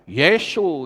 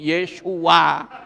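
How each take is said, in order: First: The name ends after the 'su' syllable. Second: The name ends with an added 'a' sound. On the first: The speaker calls it wrong. "bisanya Yesu katanya" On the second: The speaker calls it right. "mangapo sithik Yesua"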